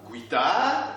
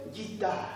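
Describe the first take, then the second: First: "guitare" said wrongly with a w glide, gwi-tar; "guitare" as gwee-TAAR, stretched and rising; mispronounced guitare. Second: "guitare" with a plain hard g, ghee-tar; "guitare" as ghee-TAR, quiet and neat; correct pronunciation of guitare. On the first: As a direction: sound the u in "guitare", drawn out as goui-taare. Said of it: "il faut bien prononcer le mot, pas". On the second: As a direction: say "guitare" as gui-tar, no w glide, falling softly. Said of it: "il faut bien prononcer, vous dites". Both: Shown as a demonstration.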